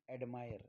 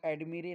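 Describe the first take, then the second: First: The second vowel sounds like 'eye'. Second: The second vowel sounds like short 'i'. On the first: The speaker calls it right. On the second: The speaker calls it wrong.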